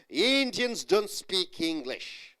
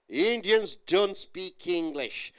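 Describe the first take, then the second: First: The negative is said as one contracted word. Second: The negative is said as one contracted word.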